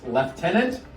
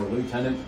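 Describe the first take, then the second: First: It is said with a British pronunciation. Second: It is said with an American pronunciation. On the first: "We'll use the uh, British pronunciation" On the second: "for us in America"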